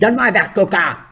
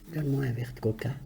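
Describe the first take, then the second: First: It is said in an angry, scolding tone. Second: It is said in a pleased, grateful tone.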